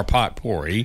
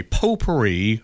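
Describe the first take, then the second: First: "potpourri" with the T sounded, POT-por-ee; mispronounced potpourri. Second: Said in the usual way. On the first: Shown as a demonstration. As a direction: say "potpourri" as spelled, like pot plus pory. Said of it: "whether or not potpourri was pronounced". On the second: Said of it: "as it's supposed to be".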